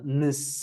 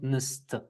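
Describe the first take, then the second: First: The word ends without a final t sound. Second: The word ends with a final t sound. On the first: "it just sounds like uh, nis" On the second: "and not nist"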